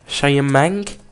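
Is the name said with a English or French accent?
French. The name is said with a French accent.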